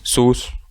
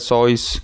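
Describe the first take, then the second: First: The vowel sounds like 'oo'. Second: The vowel sounds like 'oy'. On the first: This is the common pronunciation most people use. "En lo personal me gusta más sus" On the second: This is how the man himself pronounced it. "he pronounces it sois"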